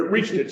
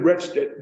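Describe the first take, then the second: First: "reached" with a long ee; "reached" clearly, rhyming with beached; standard REACHED. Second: "retched" with a short e, rhyming with fetched; "retched" for reached, short vowel; dialect RETCHED. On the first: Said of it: "but reached it". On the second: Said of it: "But she said". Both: Shown as a demonstration.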